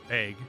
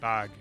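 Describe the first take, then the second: First: It is said with a Midwestern vowel. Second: It is said with a standard vowel.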